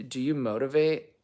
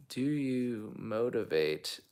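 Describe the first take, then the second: First: Said in the usual way. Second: Drawn-out, softer puzzling over it; slow, puzzled repeat. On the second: Real, not acted. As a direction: read it slowly and quietly, unsure of the meaning. I'm not sure what motivate means.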